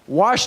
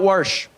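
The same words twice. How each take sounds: First: It is said in a standard accent. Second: It is said in a redneck accent. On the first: The speaker calls it right. "it is uh, wash" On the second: The speaker calls it wrong. "not wash"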